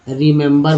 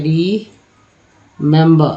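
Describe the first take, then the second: First: Said in the usual way. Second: रीमेंबर very slowly, री, then member; teacher breaking रीमेंबर apart with a pause; syllable-by-syllable reading. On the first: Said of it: "रिमेंबर बोलते हैं". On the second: Shown as a demonstration. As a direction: sound out रीमेंबर in separate drawn-out pieces. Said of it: "लिखते, बोलते क्या पढ़ते हैं?".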